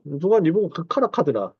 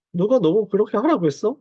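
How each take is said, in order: First: Imitated Gyeongsang dialect retort; Gyeongsang-do intonation, lightly imitated; Busan dialect. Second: Said in the usual way. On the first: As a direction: quote it in a Busan accent. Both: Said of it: "경상도 말로, 부산 말로".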